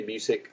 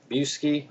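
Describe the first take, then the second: First: Busiek said as "BYOO-sik"; alternative pronunciation. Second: Busiek said as "BYOO-skee"; unsure pronunciation. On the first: Comic fan trying the writer's surname another way, Busiek as "BYOO-sik". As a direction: say "Busiek" ending in a short -sik. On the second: Comic fan guessing at a writer's surname, Busiek as "BYOO-skee". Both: Real, not acted. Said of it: "how the heck you pronounce his name".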